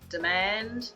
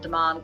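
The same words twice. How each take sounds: First: It is said in a plain everyday pronunciation. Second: It is said in a posher, affected pronunciation. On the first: This is how people here normally say it. The speaker calls it right. "tend uh, to say France, demand" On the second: This would sound pretentious. The speaker calls it wrong. "It's not demand, ... because we don't want to sound like a wanker"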